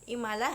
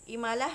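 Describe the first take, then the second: No difference in how they are said.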